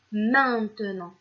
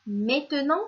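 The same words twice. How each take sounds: First: MAINTENANT with a nasal ain, drawn out; correct nasal vowel. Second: MAINTENANT said as mè-te-nant, without the first nasal; wrong vowel. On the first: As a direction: stretch the nasal first syllable of MAINTENANT. (« maintenant » bien prononcé, avec le son « ain » nasal) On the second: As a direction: say MAINTENANT with è in place of ain. (« maintenant » mal prononcé « mètenant », avec un è) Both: Shown as a demonstration. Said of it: "on dit maintenant".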